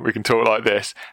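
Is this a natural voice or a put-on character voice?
natural. It is said in a plain, natural speaking voice. This is the narrating voice. "when we're narrating"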